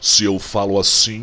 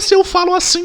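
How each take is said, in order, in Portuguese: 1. A voz é grave, de tom baixo. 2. A voz é aguda, de tom alto e fino. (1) "a minha voz é grave" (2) "a minha voz é aguda"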